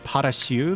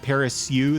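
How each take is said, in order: First: The syllable is said with a 'sh' sound. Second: The syllable is said with an 's-y' sound. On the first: The speaker calls it right. "like a Sha sound" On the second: The speaker calls it wrong. "that's not right"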